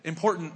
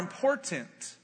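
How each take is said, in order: First: Some sounds of the word are reduced. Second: Every sound of the word is clearly pronounced. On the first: It is the speaker's own habit. "Important is how I would say it" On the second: It copies another speaker's habit. "I say important like Shaney because I watched her speak for 10 years"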